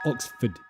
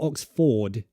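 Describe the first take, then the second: First: The second syllable is a weak schwa, no R. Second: The R in the second syllable is pronounced. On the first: The speaker calls it right. "it's Oxford... It's a schwa again" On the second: The speaker calls it wrong. "you might be pronouncing the R in Ford. It's not Oxford"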